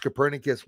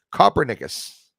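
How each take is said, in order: First: Said in the usual way. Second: Copernicus as "COPPER-nickus"; first mispronunciation. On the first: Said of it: "The first time I pronounced Copernicus". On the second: Shown as a demonstration. Host showing viewers an old mistake, first mispronunciation. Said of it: "The first time I pronounced Copernicus was".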